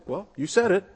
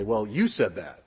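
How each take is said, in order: First: Pitched higher in cheerful agreement; bright, conceding well you said it; agreeing. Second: Pinning it back on someone; sour, faintly accusing well you said that. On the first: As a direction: say it as a nod of agreement. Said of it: "the very same words can mean agreement". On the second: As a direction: turn the words into a reproach. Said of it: "That can be a term of negativity". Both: Shown as a demonstration.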